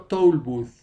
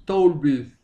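First: American o-u vowel; American English toll booth; American pronunciation. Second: British o-i vowel in booth; British English toll booth; British pronunciation. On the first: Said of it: "Y el otro". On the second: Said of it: "en británico O mezclada con I". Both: Shown as a demonstration.

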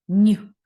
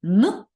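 First: "н" palatalized to "нь", punched out; isolated soft "нь", louder; soft Н sound. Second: "н" hard and punched out; isolated hard "н", louder; hard Н sound. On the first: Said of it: "так і м'який". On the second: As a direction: say "н" without palatalizing it. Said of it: "може бути як твердий". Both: Shown as a demonstration.

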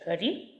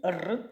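First: Рі with a palatalized, soft R; soft рі, tongue raised towards an i. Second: Р rolled hard, on its own; isolated hard Р without palatalization. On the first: Teacher comparing two words' first sounds, soft рі. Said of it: "рі м'який приголосний". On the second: Teacher comparing two words' first sounds, hard Р. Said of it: "Р твердий". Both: Shown as a demonstration.

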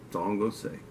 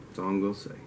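Both takes have the same delivery.

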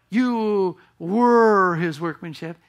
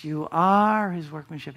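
First: Slow, drawn-out past tense were; preacher stretches the wrong past-tense were slowly; slow wrong-tense take. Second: Said in the usual way. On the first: Shown as a demonstration. Slow stressed past tense. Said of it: "It's not the past".

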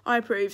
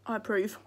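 First: "I approve" said louder with a firm falling tune; loud final verdict. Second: Said in the usual way. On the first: Real, not acted. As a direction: declare "I approve" loudly and firmly. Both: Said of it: "And I've only tried one sweet".

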